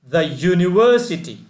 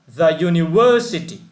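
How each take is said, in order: The two takes are said the same way.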